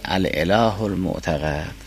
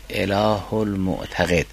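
First: المعتقد pronounced "mu'taqad", with "a" in the last syllable; fatha on qaf. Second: المعتقد pronounced "mu'taqed", with "e" in the last syllable; kasra on qaf. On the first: Teacher recaps the second reading, المعتقد ending "-qad". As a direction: say الاله with "al", then المعتقد with qaf taking fatha. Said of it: "به فتح قاف است". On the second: Teacher recaps the first reading, المعتقد ending "-qed". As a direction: say اله without "al", then المعتقد with qaf taking kasra. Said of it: "به کسر قاف است". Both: Shown as a demonstration.

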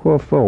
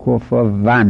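First: کفوا ending in a rounded -wan; Arabic w. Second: کفوا ending in a toothed -van; Persian v. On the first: Shown as a demonstration. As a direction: glide into the end of کفوا on a w. («کفوا» با واو لبی عربی) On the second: Retold or imitated. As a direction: put a hard v near the end of کفوا. («کفوا» با واو دندانی فارسی)

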